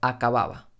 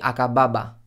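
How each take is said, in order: First: The lips barely touch on each b. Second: The lips close fully on each b. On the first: The speaker calls it right. "estoy diciendo acababa, que es casi sin tocar los labios" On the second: The speaker calls it wrong. "No estoy diciendo"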